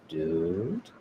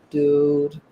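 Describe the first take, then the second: First: It sounds scared and unsure. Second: It sounds annoyed. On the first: The speaker does not know what is happening. "if you're a little bit scared or you're not sure what's going on" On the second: The speaker is irritated with someone. "like you're annoyed"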